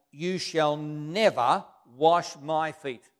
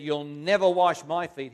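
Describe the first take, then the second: First: "never" leaned on, whole line slow and louder; emphatic on never. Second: Louder, "never" punched hard; emphatic never. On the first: Peter protesting to Jesus, slow with "never" stressed. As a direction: Peter refusing his Lord, dragging out "never". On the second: Peter refusing Jesus, stress on "never". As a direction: hit "never" as a flat refusal. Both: Acted. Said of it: "Peter was very emphatic on the never".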